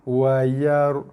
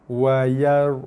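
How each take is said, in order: No difference in how they are said.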